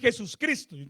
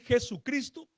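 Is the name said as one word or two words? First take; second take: two words; one word. First: It is said as two separate words with the s. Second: It is said as one fused word without the s. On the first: The speaker calls it wrong. "no suena tan bien" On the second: The speaker calls it right. "suena más agradable decir Jesucristo"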